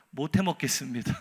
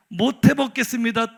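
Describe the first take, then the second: First: Said in the usual way. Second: "못 해먹겠습니다" loud and higher, every syllable distinct; emphatic, distinct. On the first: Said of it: "한마디로". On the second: Acted. Prophet's resignation letter, "못 해먹겠습니다" hammered out loud and distinct. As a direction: punch out "못 해먹겠습니다" syllable by syllable, loudly. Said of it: "또박또박 써서".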